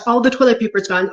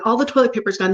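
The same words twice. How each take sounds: First: Mock panic. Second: Said in the usual way. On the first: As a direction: rush it out like the shelves are empty. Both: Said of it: "But if that person is like".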